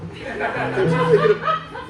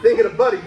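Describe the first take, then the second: First: High, slow, laughing break on the words; mock tearful wobble breaking into a laugh; laughing catch. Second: Said in the usual way. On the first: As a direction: fake choke up, laughter cracking through. Choking up over dead dog.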